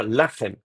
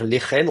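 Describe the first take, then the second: First: Lachem avec un « a » dans la première syllabe; prononciation correcte. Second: Lechem avec un « è » dans la première syllabe; prononciation fautive. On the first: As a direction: say lachem with an open A after the L. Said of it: "on va dire lachem". (prononciation correcte de lachem, avec « la ») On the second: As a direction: say lechem with an E vowel after the L. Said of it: "mais on va pas dire lechem". (prononciation fautive de lechem, avec « lé ») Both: Shown as a demonstration.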